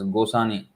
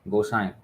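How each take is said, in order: First: A full n sound comes before the last vowel. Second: The last vowels are nasalized with no n sound. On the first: The speaker calls it wrong. "many devotees um, pronounce this as Gosani" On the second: The speaker calls it right. "There's a nasal sound"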